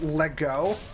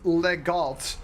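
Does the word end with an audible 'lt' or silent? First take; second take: silent; audible. First: The word ends in a vowel, 'lt' silent. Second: The word ends with an audible 'lt' sound. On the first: The speaker calls it right. "is actually just pronounced lego" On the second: The speaker calls it wrong. "what I thought was pronounced legalt"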